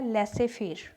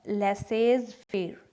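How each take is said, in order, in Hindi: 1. 'faire' से पहले 'z' की ध्वनि नहीं सुनाई देती। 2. 'faire' से पहले 'z' की ध्वनि सुनाई देती है। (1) "पहला है लेसे फेर" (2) "नॉट लेसेज फेर"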